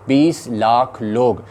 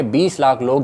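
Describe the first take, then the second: First: बीस लाख लोग dragged out very slowly, each word weighed; slow emphasis. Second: Said in the usual way. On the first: Real, not acted. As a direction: repeat बीस लाख लोग slowly to drive the number home.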